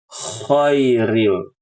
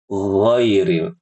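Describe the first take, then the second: First: The word begins with a voiceless scraping kh sound. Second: The word begins with a voiced gargled gh sound. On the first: The speaker calls it wrong. "mengubahnya jadi kha ... ini salah" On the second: The speaker calls it right. "Yang benar ghairil"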